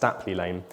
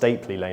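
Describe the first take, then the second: First: The first part sounds like 'Stapel'. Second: The first part does not sound like 'Stapel'. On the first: This keeps the original Anglo-Saxon pronunciation. The speaker calls it right. "it's actually pronounced Stapley Lane because the original Anglo-Saxon pronunciation was Stapelweg" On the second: This is a later, mistaken reading of the name. The speaker calls it wrong. "it's not pronounced Stapley Lane as I originally thought"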